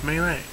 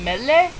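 First: "Melee" with long first vowel, like "MAY-lay"; corrected pronunciation. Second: "Mele" with short e, like "MEH-leh"; unsure pronunciation. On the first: Shown as a demonstration. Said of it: "It's like Super Smash Brothers". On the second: Real, not acted. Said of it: "How do you say that?".

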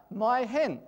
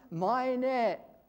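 First: "my hen." said as plain English words, as the soldier heard them; misheard as English. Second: "my net" said as the Tsugaru dialect word, raised. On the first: Showing how the soldier misheard the dialect, "my hen." in English. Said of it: "It sounded like, to the American soldier". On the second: Teaching the congregation the dialect word, "my net" pronounced clearly. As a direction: give "my net" as the local dialect says it. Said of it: "and it's ... is what you would say". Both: Shown as a demonstration.

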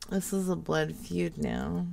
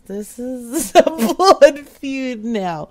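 First: Low, very soft mock man. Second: Slow, breaking up with real laughter; laughing. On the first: Prank caller tries out a man voice, low and soft. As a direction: drop it low and quiet like a man. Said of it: "Should I do my man voice?". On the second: Real, not acted. Prank caller reacts to angry voicemail, laughing. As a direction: laugh through the words.

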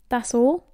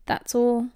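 First: "That's all?" rising on "all"; questioning. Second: "That's all." level, with no rise on "all"; confirming. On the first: Boy asking about a short note, "That's all?" rising in question. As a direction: ask "That's all?" with the pitch climbing at the end. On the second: Boy confirming the note's contents, "That's all." as statement. Friend confirms, answering the question. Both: Acted.

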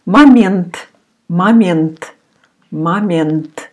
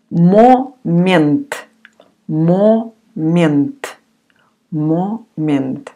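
First: Момент said as "ma-MYENT", joined up; unstressed O as A. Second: Момент said syllable by syllable with a full O; spelled-out pronunciation. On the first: Teacher shows learners how we pronounce Момент, O like A. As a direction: turn the O of Момент into an A. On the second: Teacher sounds out Момент for learners, full O in first syllable. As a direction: pronounce Момент as written, with a clear O. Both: Shown as a demonstration. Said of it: "we pronounce like a".

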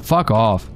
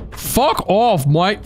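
First: Said in the usual way. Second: High mock British "Fuck off, mate"; British accent. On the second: Shown as a demonstration. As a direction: say "Fuck off, mate" like a cheeky Brit.

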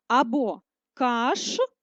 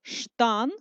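First: Каштан drawn out slowly, split the other way; slow second split. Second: Каштан broken into syllables; first split. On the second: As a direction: show каштан split one way. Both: Shown as a demonstration. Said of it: "як ми можемо перенести це слово по-різному".

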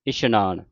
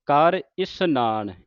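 First: ਇਸ਼ਨਾਨ said with sh, the mistaken way; ਇਸ਼ਨਾਨ with sh, the wrong way; wrong pronunciation demo. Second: ਇਸਨਾਨ said slowly with a plain s, not sh; ਇਸਨਾਨ with plain s, slow and careful; correct pronunciation. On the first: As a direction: demonstrate ਇਸ਼ਨਾਨ with a sh sound as the error. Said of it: "ਸੱਸੇ ਦੇ ਪੈਰ ਵਿੱਚ ਬਿੰਦੀ ਲਾ ਕੇ ਉਚਾਰਨ ਕਰ ਜਾਂਦੀਆਂ". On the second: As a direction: model ਕਰ ਇਸਨਾਨ slowly with a clear s. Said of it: "ਇਸਨਾਨ ਬੋਲਣਾ ਹੈ". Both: Shown as a demonstration.

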